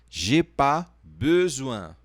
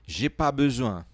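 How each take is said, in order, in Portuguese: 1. A frase é dita mais devagar. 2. A frase é dita em velocidade normal.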